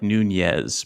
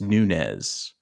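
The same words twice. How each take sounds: First: The name is said with an added 'new' sound. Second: The name is said plainly, without the added sound. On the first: The speaker calls it wrong. "I always want to add a new to it" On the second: The speaker calls it right. "but it's just Nunez"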